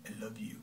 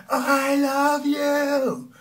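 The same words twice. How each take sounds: First: Whispered, no feeling at all; barely voiced, emotionless; no emotion. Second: Drawn-out, loud, high scream. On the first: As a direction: breathe I love you without any feeling. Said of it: "And there's no emotion". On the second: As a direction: belt out I love you slowly at the top of your voice. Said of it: "if I would scream out the word". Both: Shown as a demonstration.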